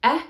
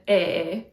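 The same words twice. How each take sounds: First: "eh" as a short open vowel. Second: "eh" held long and closer, like "ay". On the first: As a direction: cut the "eh" short, as in bed. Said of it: "first E is a short E". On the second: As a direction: draw the "eh" out into a long pure vowel. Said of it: "second E is a long E". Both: Shown as a demonstration.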